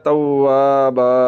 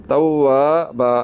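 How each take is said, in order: Both takes have the same delivery.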